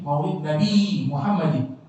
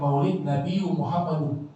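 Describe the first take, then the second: First: The last word ends with an 'in' sound. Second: The last word ends with an 'un' sound. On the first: The speaker calls it right. "tapi maulid Nabi Muhammadin" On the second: The speaker calls it wrong.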